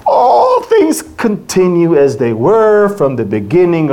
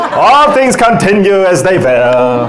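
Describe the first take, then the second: First: Said in the usual way. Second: Lightly put-on Hebrew accent, a bit louder with a laugh. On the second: Shown as a demonstration. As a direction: read the verse in a playful Hebrew accent. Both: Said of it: "I can do the Hebrew accent if you want".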